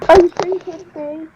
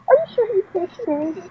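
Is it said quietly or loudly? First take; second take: loudly; quietly. First: It is said loudly. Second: It is said quietly.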